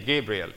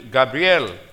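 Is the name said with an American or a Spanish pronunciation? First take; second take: American; Spanish. First: It is said with an American English pronunciation. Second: It is said with a Spanish-style pronunciation. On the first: "You Americans say Gabriel" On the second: "I'm pronouncing it Spanish way or Hebrew way"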